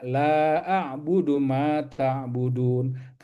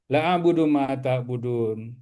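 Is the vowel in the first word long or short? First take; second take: long; short. First: The vowel of the first word is lengthened. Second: The vowel of the first word is short. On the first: I do not worship what you worship. The speaker calls it right. "seharusnya kita baca" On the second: Indeed I worship what you worship. The speaker calls it wrong. "Abah pernah ya bermakmum di imam yang begini"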